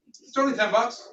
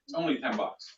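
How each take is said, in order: First: "only" lifted, rising bright finish; stress on only. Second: Said in the usual way. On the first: Shown as a demonstration. Trainer demoing the pitch to staff, "only" rising high. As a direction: sell it with "only" swung upward. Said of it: "Is everybody with me?". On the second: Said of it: "It's only is a great word too".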